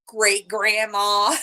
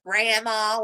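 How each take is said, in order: First: "Great grandma" drawn out very slowly and louder, as a playful jab; teasing comeback. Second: Imitating the mother-in-law, saying "Grandma" as a playful jab; mock insult. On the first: Retold or imitated. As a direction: hit back by stretching out "Great grandma". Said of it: "So I go back at her". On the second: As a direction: tease her with "Grandma" as if it stings. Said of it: "like it's an insult".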